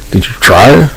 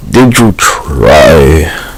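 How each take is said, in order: First: High, rising mock question; pitched-up incredulous did you try. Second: Very slow, stretched-out did you try; drawn-out sarcastic question. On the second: Acted. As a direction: drag every word out in disbelief. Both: Repeated mocking question.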